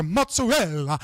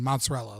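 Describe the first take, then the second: First: "mozzarella" said the Italian way, with a ts sound and a clipped end; mock-Italian "mozzarella", "mots-a-REL"; lightly Italianized "mozzarella". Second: Said in the usual way. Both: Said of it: "just say mozzarella".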